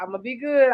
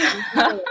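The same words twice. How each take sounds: First: Said in the usual way. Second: Laughing, much higher; laughing through it. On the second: Retold or imitated. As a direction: giggle the promise out. Repeats promise laughing.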